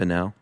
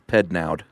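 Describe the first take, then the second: First: The name ends without a D sound. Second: The name ends with a D sound. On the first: "I assume the D is silent" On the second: "or maybe not"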